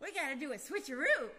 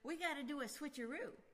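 First: It is said at a louder volume. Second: It is said at normal conversational volume.

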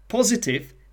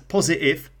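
First: The middle t is pronounced as a clear t. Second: The middle t is replaced by a glottal stop.

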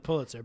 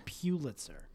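First: The first syllable sounds like 'pull'. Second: The first syllable sounds like 'pew'. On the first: This is the proper way to say the name. The speaker calls it right. "it's definitely Pulitzer" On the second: This is how some, mostly snobby, people say it. The speaker calls it wrong. "but people say Pulitzer"

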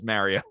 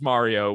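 First: Mario is said with a regional Long Island pronunciation. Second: Mario is said with the standard pronunciation. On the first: This is how people from the speakers' home region say it. The speaker calls it wrong. "We come from a background and a part of the country that says Mario" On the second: This is the generally accepted way to say it. The speaker calls it right. "We know it's Mario"

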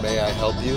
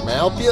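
First: Each word is said separately and fully. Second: The words are run together into two syllables. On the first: "instead of saying" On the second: "that's what they say in Tennessee"

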